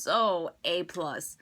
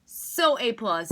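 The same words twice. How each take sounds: First: Said in the usual way. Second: "So A plus" slow, every word stressed; slow it down and hit each word of "So A plus"; slow, emphatic "So A plus" as a final verdict; emphatic repeat. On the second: Shown as a demonstration.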